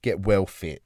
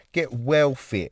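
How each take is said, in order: First: Said in the usual way. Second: Slow British "Get well fit" with "well" drawn out; a light mock British accent. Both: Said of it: "Off to Britain now, are we".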